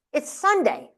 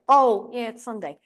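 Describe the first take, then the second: First: Higher-pitched mock disbelief; lightly imitated baffled father; incredulous father. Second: Mock sheepish acceptance; resigned agreement. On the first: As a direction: say it as Dad stating the obvious. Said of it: "he would look at me like I was nuts". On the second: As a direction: give in, as a child reminded of the rule. Child conceding to father's reminder.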